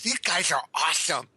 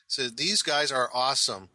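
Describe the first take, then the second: First: It is said in a put-on geek voice. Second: It is said in his normal voice.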